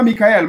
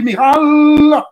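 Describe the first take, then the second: First: Said in the usual way. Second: "Michael" as "Migaaalll", the end held high and loud; ritual pronunciation. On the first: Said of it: "On ne dit pas Michael". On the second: Shown as a demonstration. Teacher contrasting it with the usual name, "Michael" intoned as "Migaaal". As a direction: chant "Michael" as "Migal", sustaining the last syllable. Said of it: "mais on dit Michael".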